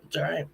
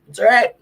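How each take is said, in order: First: Softly telling himself it's fine; soft reassurance. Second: It's all right, much higher and louder, pushed out brightly; loud self-reassurance; forced cheer. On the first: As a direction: settle into quiet comfort. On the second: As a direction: bounce up to sound okay. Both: Real, not acted. Consoling himself and viewers.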